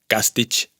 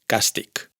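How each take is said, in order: First: The word ends with a ch sound. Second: The word ends with a k sound. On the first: The speaker calls it wrong. "que no se pronuncia càstig" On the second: The speaker calls it right. "sino càstig"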